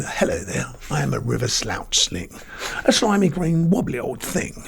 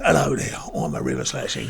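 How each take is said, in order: First: Queen's English. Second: Said in the usual way. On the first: Shown as a demonstration. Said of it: "I'll speak properly now". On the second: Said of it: "just talk normal".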